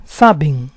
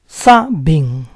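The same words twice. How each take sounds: First: Said in the usual way. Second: Saben split as SA-ben; syllable by syllable. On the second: Shown as a demonstration. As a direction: say Saben in parts, stressing SA. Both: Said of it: "stress is on the second to last syllable".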